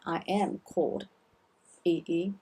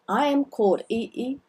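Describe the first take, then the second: First: I am called Yi Yi, quick and softer; soft quick repeat of I am called; quieter repeat. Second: I am called Yi Yi, am stressed, quick; showing the passive feel of am called; passive phrasing. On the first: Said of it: "it's passive". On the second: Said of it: "There is a bit of passive". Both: Shown as a demonstration.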